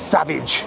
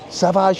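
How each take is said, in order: First: The name is pronounced the English way. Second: The name is pronounced the French way. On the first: It sounds common or ordinary. "if you're a, a common Englishman, it's Savage" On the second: It sounds refined or posh. "Savage in French"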